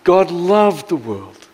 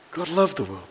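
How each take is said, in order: First: God loved the world, slow, with loved leaned on; slow emphatic line; stress on loved. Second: God loved the world said softly, drawn back; soft repeated phrase; quiet echo. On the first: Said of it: "emphatic repeat of verse". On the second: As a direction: let God loved the world fall away. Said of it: "quiet echo of the verse". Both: Shown as a demonstration.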